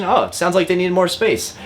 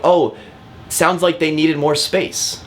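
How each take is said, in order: First: "Oh, it sounds like they needed more space" pitched higher, a leading statement with a questioning lift. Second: "sounds like they needed more space" as a statement that rises into a question at the end; a slow, curious rise on "space". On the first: Coaching agents on how to prompt the listing agent, questioning statement. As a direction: open with a high "Oh" and keep it curious. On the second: Agent asking the listing agent, statement lifting into a question. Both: Shown as a demonstration. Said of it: "Kind of like a statement, but as a question".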